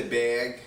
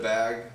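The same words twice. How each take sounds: First: "bag" with a raised vowel, toward "beg"; northern "bag". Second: Said in the usual way. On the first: Retold or imitated. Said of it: "my mom will say bag". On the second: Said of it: "instead of bag".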